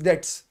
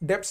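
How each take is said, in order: First: No sound is heard before the t. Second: A 'p' sound is heard before the t. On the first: The speaker calls it right. "इसमें बी silent है" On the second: The speaker calls it wrong. "डेप्ट्स नहीं होता"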